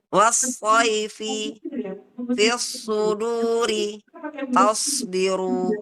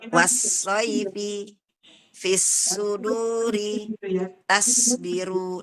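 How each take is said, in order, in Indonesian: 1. Bunyi s itu berat dan tebal. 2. Bunyi s itu ringan dan tipis. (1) "Nah, begitu ya, Bun" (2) "Yang salah biasanya begini"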